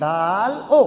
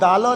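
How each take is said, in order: First: The two parts are said with a small break. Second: The two parts run together as one word. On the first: The speaker calls it right. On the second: The speaker calls it wrong. "ये दालो नहीं"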